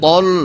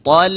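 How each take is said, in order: First: The sound is pronounced thick and heavy. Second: The sound is pronounced thin and light. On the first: The speaker calls it wrong. "Bukan tol. Jadi tebal salah" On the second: The speaker calls it right.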